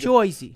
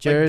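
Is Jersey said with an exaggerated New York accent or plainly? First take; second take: New York; plain. First: It is said in an exaggerated New York accent. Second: It is said plainly, with an ordinary r.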